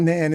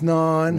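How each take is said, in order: First: The vowel sounds like the one in man. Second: The vowel sounds like the one in on. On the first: The speaker calls it wrong. "It's not nan" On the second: The speaker calls it right. "it's non"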